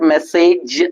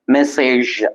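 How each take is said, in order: First: It ends with a 'j' sound as in judge. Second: It ends with a 'zh' sound as in measure. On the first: The speaker calls it wrong. "It's not message, not j sound" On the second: The speaker calls it right. "it's j sound"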